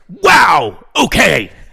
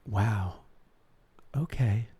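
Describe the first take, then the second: First: It is said loudly with lively, dramatic energy. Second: It is said softly in a flat monotone. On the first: It sounds like a cable news alert. "let me go right wing. It's um, Bing! Fox News alert" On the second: It sounds like calm public radio. "You had that monotone, very soft"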